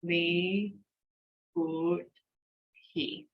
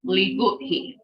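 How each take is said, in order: First: "Li", "Good", "He" one at a time with pauses; slow sounding-out, a gap after each syllable. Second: "Li, good. He." run together as one word; quick whole-word model of "Li, good. He."; fast, joined up. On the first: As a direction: break it up: Li ... Good ... He. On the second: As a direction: say "Li good He" without gaps. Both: Shown as a demonstration. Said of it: "Three times fast".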